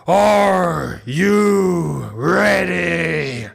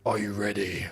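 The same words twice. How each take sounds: First: Long drawn-out wrestler's roar; Triple H. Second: Low, quiet growled wrestler challenge; Triple H. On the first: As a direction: bellow it like a ring entrance, stretching every word. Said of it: "that was a good Triple H impression". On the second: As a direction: start the wrestler's catchphrase low and menacing. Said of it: "Shall I say that as Triple H?". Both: Acted.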